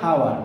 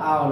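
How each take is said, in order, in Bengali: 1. শব্দটি h ধ্বনি দিয়ে শুরু হয়। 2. শব্দটি স্বরধ্বনি দিয়ে শুরু হয়। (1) "এর উচ্চারণ কিন্তু হাওয়ার না" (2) "শুরু হলো ভাওয়েলের মতো আওয়ার উচ্চারণ"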